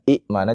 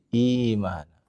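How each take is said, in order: First: A glottal stop follows a short first vowel. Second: The first vowel is long, with no glottal stop. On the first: This is the original form of the word. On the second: The hamzah has been replaced by a lengthened vowel. "jadi imana"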